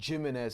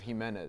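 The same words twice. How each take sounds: First: The name is said with an English pronunciation. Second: The name is said with a Spanish pronunciation. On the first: This is how the school announcers said the name. The speaker calls it wrong. "They would always say Jimenez" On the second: This is how the name is really said. The speaker calls it right. "instead of Jimenez"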